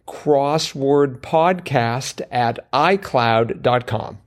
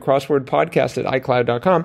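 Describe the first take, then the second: First: It is said very slowly. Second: It is said very fast.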